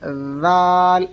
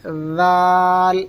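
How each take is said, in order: No difference in how they are said.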